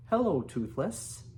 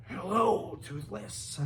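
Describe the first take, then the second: First: Said in the usual way. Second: Shrieky higher hello falling to a whispery end; attempted Dragonese. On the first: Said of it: "in what he hoped was a good accent in Dragonese". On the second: Shown as a demonstration. Reader tries Hiccup greeting Toothless in Dragonese, shrieky. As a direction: try out a human speaking dragon language. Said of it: "I think that's how it would be".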